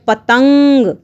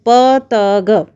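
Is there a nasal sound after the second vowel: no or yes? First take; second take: yes; no. First: It is said with a nasal after the second vowel. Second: It is said without a nasal after the second vowel.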